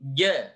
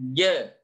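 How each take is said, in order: No difference in how they are said.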